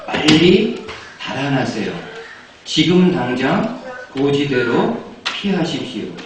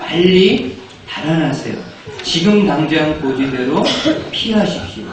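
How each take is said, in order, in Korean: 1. 부드럽고 차분하게 말하고 있습니다. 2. 절박한 다급함으로 말하고 있습니다. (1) "제가 이렇게 부드럽게 이야기했지만" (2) "정말 이 여인이 간절한 마음으로 이야기합니다"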